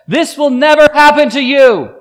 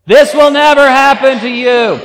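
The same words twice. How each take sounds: First: Much higher and louder, hitting NEVER; loud protest. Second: Much higher and louder, said with the crowd; loud together. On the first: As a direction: cry it out in shocked protest. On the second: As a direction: shout it out with the congregation. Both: Shown as a demonstration. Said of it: "Everyone say that loudly".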